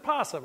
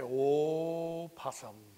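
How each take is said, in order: First: It starts directly with the p sound. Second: It starts with a vowel before the p. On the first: "it's just possum" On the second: "he would say, opossum, like that"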